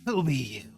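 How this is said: The voice is rough and raspy. The speaker calls it right.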